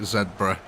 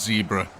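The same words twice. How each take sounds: First: The first syllable is said like 'zeb'. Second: The first syllable is said like 'zee'.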